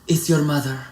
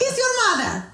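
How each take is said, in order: First: It sounds demanding, like an old Hollywood diva. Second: It sounds sweet and affectionate, like a happy mother.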